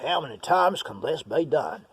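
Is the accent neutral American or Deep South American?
Deep South. It is said in a strong Deep South accent. "I'm going to really go for it. Like, I know deep south"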